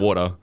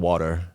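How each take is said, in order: First: It is said in an Australian accent. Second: It is said in an American accent. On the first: Americans do not understand the word. "Americans just don't get that word at all" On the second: The speaker adapts so Americans understand. "a slight American like accent twang"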